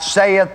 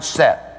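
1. Wymawia się je jako dwie sylaby, say-eth. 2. Wymawia się je jako jedną sylabę, Seth. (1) "This is not saith" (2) "this is the word Seth"

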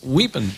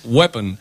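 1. La primera vocal suena como 'ee'. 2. La primera vocal suena como 'eh'. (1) "no es weapon" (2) "es weapon"

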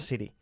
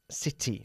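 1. El sonido de la T es débil y casi no se oye. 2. El sonido de la T está claramente acentuado y es fuerte. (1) "No city" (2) "tienes que enfatizar un poquito más el sonido de la T"

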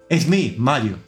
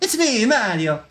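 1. Se dice sin acento italiano. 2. Se dice con un acento italiano exagerado. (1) "pero sin ese acento" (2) "no va a hacer acento italiano. Es decir, no va a decir"

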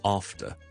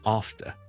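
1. 这是英式英语口音。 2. 这是英式英语口音。

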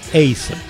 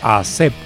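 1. El nombre se pronuncia al estilo inglés. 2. El nombre se pronuncia al estilo español.

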